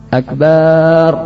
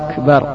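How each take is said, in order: First: The last vowel is drawn out long. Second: The first vowel is drawn out long. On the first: It turns the word into the word for a drum. "memanjangkan ba" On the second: It turns the phrase into a question about greatness. "memanjangkan hamzah sehingga menjadi akbar"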